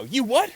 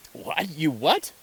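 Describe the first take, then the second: First: Very high, loud indignant question; mock outrage. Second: High, rising astonished question; acted open-minded amazement, voice jumping up; amazed disbelief. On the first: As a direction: explode in acted disbelief. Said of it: "get angry and go". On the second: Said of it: "people react that way".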